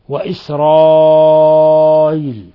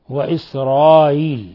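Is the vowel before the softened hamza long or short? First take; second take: long; short. First: The vowel before the hamza is lengthened. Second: The vowel before the hamza is kept short. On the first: "تسهيل الهمزة الثانية مع المد" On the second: "ومع القصر"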